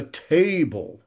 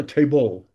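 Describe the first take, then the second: First: Table as TA-ble, weak ending; natural English table, strong TA; stress on first syllable. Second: Table as ta-BLE, ending punched; stress on last syllable. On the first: Teacher gives English example, table stressed on first syllable. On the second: Teacher shows how English doesn't go, table stressed on final BLE. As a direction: wrongly shift the weight of table onto BLE. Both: Shown as a demonstration. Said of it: "before the last syllable".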